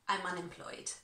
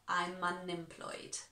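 First: The phrase is said at a faster pace. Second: The phrase is said at a slower pace.

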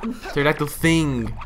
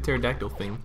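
First: The word thing is strongly stressed. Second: The word thing is not specially stressed.

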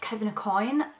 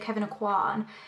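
First: The surname ends with a 'coin' sound. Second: The surname ends with a 'kwan' sound. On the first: This is how someone from the brand said it. The speaker calls it right. "I think it's Kevin O'Coin" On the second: This is how many other people say it. The speaker calls it wrong. "I know a lot of people say Kevin O'Quan"

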